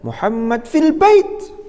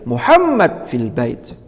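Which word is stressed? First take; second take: bait; Muhammad. First: The stress falls on the word bait. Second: The stress falls on the word Muhammad. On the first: It answers where Muhammad is. "baitnya itulah yang menjadi nabrul jumlah dalam konteks ini" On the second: It answers who is in the house. "Kalau tekanannya di Muhammadun fil bait, maka ini tentunya untuk menegaskan, karena menjawab pertanyaan man fil bait"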